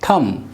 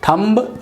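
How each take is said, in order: First: The word ends on the m sound. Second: The word ends with an audible b sound. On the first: The speaker calls it right. "बी silent" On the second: The speaker calls it wrong. "थम्ब wrong होगा"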